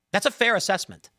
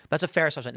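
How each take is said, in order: First: "That's a fair assessment" said higher, pleased; quoting his own approving thanks to the chatbot, higher; pleased quote. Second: Said in the usual way. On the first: Retold or imitated. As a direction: raise the pitch, pleased and approving. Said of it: "I said".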